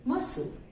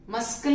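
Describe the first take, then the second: First: "मसल" as "masal", no k sound; silent c demo. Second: "मस्कल" with a clear k, "maskal"; wrong, c sounded. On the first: Teacher to class, "मसल" with the c silent. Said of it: "मस्कल नहीं बोलते". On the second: Teacher shows the wrong way, "मस्कल" with a k. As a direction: put a hard k into "मस्कल". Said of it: "नहीं बोलते". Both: Shown as a demonstration.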